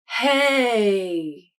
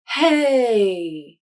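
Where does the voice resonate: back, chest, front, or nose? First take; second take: chest; chest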